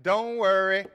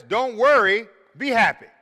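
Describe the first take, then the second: First: Said in the usual way. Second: Sung, song quote. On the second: Retold or imitated. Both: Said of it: "Or what about this?".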